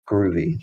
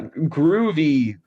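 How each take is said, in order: First: It is said in the speaker's normal voice. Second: It is said in an exaggerated put-on accent.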